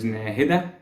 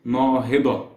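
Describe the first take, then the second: First: Nahida with a front "næ" and final "dæ"; first pronunciation. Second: Nahida with a long open "naa", "naa-hi-da"; second pronunciation. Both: Shown as a demonstration. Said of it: "two potential pronunciations".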